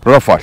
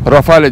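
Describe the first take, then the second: First: The name is said with French pronunciation. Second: The name is read letter by letter, Turkish style. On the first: This is how it is said in the original language. "Fransızca'da Rafale" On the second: This is how local readers tend to say it. "birçoğumuz bunu Rafale diye okuyabilir"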